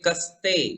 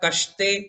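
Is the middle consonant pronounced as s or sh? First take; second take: s; sh. First: The middle consonant is a plain s sound. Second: The middle consonant is a sh sound. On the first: The speaker calls it right. "समय वाला आप पढ़ेंगे कस्ते तो ये समय वाला स हुआ" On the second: The speaker calls it wrong. "कश्ते कर दिया तो वो शक्कर वाला श हो गया, उसका अर्थ भी बदल गया"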